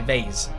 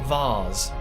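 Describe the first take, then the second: First: The word is said in a plain way. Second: The word is said in a posh way. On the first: This is how ordinary people say it. "I say vase" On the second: This is how posh people say it. "I'm not posh. I don't say vase"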